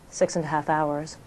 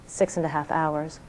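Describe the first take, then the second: No difference in how they are said.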